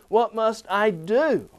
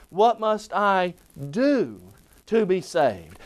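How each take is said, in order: First: "do" pressed, slow; slow, with "do" contrasted against get and feel; stress on DO. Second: "do" stressed, slower; slow, with weight on "do". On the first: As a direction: hit "do" hard. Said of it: "Not get or not feel". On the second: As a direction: lean on "do". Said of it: "Then we can ask it this way". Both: Shown as a demonstration.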